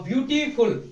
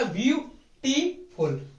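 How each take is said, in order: First: Said in the usual way. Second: ब्यूटीफुल slowly, each syllable ब्यू टी फुल set apart. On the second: Shown as a demonstration. Teacher breaking the word into syllables for the class, slow and spaced. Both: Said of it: "तीन हिस्सों में तोड़ा".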